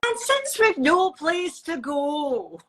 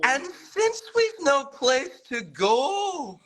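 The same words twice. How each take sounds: First: Slow Scottish lilt; sing-song Scottish teaching line; Scottish accent. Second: Much higher, slow Scottish imitation; Scottish accent. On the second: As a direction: strain for the Scottish lilt. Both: Shown as a demonstration. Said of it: "in a Scottish accent".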